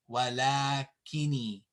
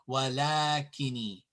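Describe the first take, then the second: No difference in how they are said.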